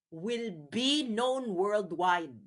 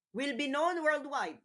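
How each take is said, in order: First: Slow emphasis. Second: Higher repeat. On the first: Vlogger warning viewers about the ICC, slow and deliberate. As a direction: stretch it out, word by word. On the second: Vlogger repeating his point to viewers, higher and sharper. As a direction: repeat it pitched higher, punchy. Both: Shown as a demonstration. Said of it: "repeats the phrase for emphasis".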